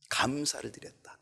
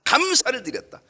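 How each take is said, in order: First: 감사를 드렸다 whispered with no voice; first 감사를 드렸다 hushed and unvoiced. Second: 감사를 드렸다 said much higher and louder, falling at the end; second 감사를 드렸다 ringing out after the whisper; proclaimed. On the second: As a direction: call out 감사를 드렸다 high and strong. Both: Shown as a demonstration. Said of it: "repeats the phrase two ways".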